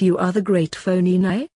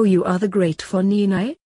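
First: "Fonini" said as phony-nigh, questioning; "Fonini" with a long O, ending in "nigh"; name mispronounced as phony. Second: "Fonini" said as fon-ee-nigh, questioning; "Fonini" starting like "fawn", ending in "nigh"; name recognized. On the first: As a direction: ask it with "Fonini" starting like "phony". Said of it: "pronouncing his name as Fonini". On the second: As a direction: ask it with an open first vowel in "Fonini". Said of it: "recognizing his name". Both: A narrator's reading.

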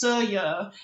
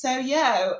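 First: Soyo with short flat vowels, "Sor-ya"; northern pronunciation. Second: Soyo slow with long "oh" vowels, "Soh-yoh"; southern pronunciation. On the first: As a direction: say Soyo the northern way, unstressed ending. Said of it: "in the northern accent, it's Soyo". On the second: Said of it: "with my friends that were southern, it was Soyo". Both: Retold or imitated.

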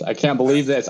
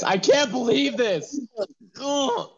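First: Said in the usual way. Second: "I can't believe this" stretched out slow and much higher, "can't" rising; a mock anguished wail, drawn out; wailing disbelief. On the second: Real, not acted.

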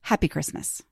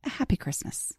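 First: Put-on understated second go at a British accent; softer, lower, lightly British; Caroline's British greeting. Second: Soft, put-on British accent; Caroline's British accent. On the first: Podcast host correcting her imitation of the guest, understated British phrasing. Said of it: "she wouldn't say it like that". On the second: Podcast host imitating her British guest's festive farewell, soft mock-British accent. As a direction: lightly mimic a British speaker, hushed. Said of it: "as Caroline would say".

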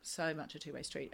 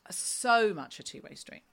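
First: Softer, trailing, to herself; soft repeat. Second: Slow, with weight on SO; emphatic agreement. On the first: Repeating the phrase to herself, soft and trailing off. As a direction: let it fall away, half to yourself. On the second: Agreeing with her co-host, SO stretched and stressed. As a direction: lean into SO, drawing it out. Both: Real, not acted.

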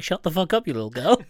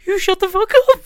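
First: Raised, mock-angry outburst with a laugh in it; holding back tears. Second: Very high, loud, hammed-up wail; mock tearful shout. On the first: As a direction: snap at a child, half laughing. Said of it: "He's, like, holding back tears". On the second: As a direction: squeal it like someone comically bursting into tears. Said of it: "holding back tears".

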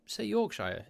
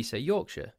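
First: Higher-pitched, Yorkshire ending like "shyer"; American pronunciation. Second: Yorkshire with a reduced "shuh" ending; British pronunciation. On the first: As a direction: say Yorkshire as YORK-SHY-er, pitched up. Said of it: "It's just the way that you say that". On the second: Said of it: "But we say Yorkshire". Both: Shown as a demonstration.

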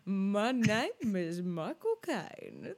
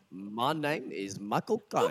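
First: Very slow, drawn-out parody of a bad impression; mocking imitation. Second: Slow, badly faked Cockney film-star impression; Michael Caine. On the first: Co-host mimicking the host's bad impression, mockingly slow. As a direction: exaggerate each word slowly, sending it up. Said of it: "what you're doing is like". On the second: Shown as a demonstration. Host proudly demonstrating a disputed impression, slow mimicry. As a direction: draw it out in a dubious Cockney. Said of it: "I can do a great Michael Caine impression".

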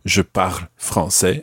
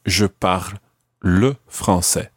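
First: Said in the usual way. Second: Slow, with le clearly leaned on; slow down and land on le; le set apart and stressed in le français. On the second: Shown as a demonstration. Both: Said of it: "we didn't need to use the word le".

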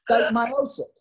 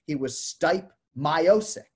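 First: Stipe Miocic pitched much higher and louder, Stipe falling at the end; proper Croatian Stipe Miocic; correct Croatian pronunciation. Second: Miocic said slow and drawn out as my-OH-sick with a rising end; he was Stipe Miocic, slow, the anglicised way; mock the American take on Miocic; Americanized pronunciation. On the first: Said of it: "people still call him Miocic instead of Miocic". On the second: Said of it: "That drove me crazy". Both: Shown as a demonstration.

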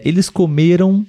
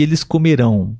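First: COMERAM with the accent on ME; accent the middle of comeram; stress on ME. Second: COMERÃO with the accent on RÃO; accent the end of comerão; stress on last syllable. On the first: Teacher presenting the past form to viewers, middle-syllable stress. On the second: Teacher presenting the future form to viewers, final-syllable stress. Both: Shown as a demonstration. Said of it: "porém a sílaba tônica é diferente".

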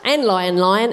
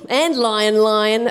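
First: Lightly acted interruption; eager interjection. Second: Slow, drawn-out agreement; emphatic agreement. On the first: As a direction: chime in without drawing it out. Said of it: "interrupted Foxy Loxy". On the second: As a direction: agree by stretching out each word. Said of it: "agreed Turkey Lurkey". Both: A narrator's reading.

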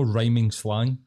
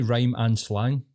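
First: "rhyming" as one word ending in -ing; saying "rhyming". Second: Slow, separated "rhyme and slang"; correcting to "rhyme and". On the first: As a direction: show the rejected "rhyming slang", run together. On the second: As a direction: spell out "rhyme and" as two words. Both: Shown as a demonstration. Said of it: "it's no rhyming slang".

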